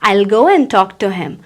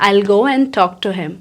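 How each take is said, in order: First: 'I will' is blended into one syllable. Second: 'I will' is blended into one syllable.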